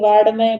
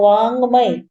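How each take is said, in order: First: The middle consonant is a d sound. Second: The middle consonant is a nasal ng sound. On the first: The speaker calls it wrong. "यहाँ पे लोग mistake करते हैं, इसको कोई वाड्मय बोलते हैं" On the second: The speaker calls it right. "इसका बस इतना सा उच्चारण आएगा जैसे अंक की बिंदी होती है ऊपर"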